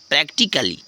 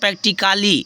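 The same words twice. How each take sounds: First: No vowel is sounded before the -lly ending. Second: An extra vowel is sounded before the -lly ending. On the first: The speaker calls it right. "ए silent हो जा रहा है" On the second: The speaker calls it wrong. "ऐसे कुछ पढ़ते हैं ना"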